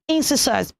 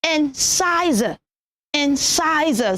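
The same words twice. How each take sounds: First: Incisors as "IN-si-sus"; short "si" in incisors, s not z; wrong pronunciation. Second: Incisor as "in-SIGH-zer", drawn out; slow incisor with stressed SIGH and a z; correct pronunciation. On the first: Teacher telling children the wrong form, mispronounced incisors. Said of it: "is not incisors". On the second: Teacher modelling for children, slow careful incisor. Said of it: "Pronounce it as". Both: Shown as a demonstration.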